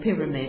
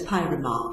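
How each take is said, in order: First: It is said with a plain English pronunciation. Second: It is said with a mock French pronunciation. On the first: "instead of saying pyramid" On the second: "mocks the pronunciation used by uh, by a French speaker"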